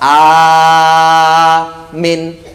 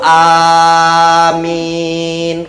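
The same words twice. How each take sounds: First: The first vowel is long, the second short. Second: Both the first and second vowels are long. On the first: It means something different, safety. The speaker calls it wrong. "a-nya panjang, minnya pendek, artinya juga lain" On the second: It asks that the prayer be granted. The speaker calls it right. "yang betul tuh amin, kabulkanlah"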